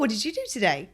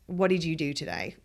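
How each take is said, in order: First: The question sounds light and genuinely curious. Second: The question sounds pointed and critical. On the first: The asker simply wants to know about the day. "I'm just curious to find out like what your day entailed" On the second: The asker implies the day was not well spent. "as opposed to"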